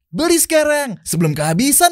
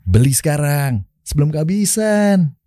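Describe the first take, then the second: First: It is said in a bright, playful, childlike tone. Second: It is said in a relaxed, casual, youthful tone. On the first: It advertises a product for children. "Lo ngiklanin si botol minum anak-anak ini" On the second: It advertises a product for young people. "buat mikrofon nih anak-anak muda kan"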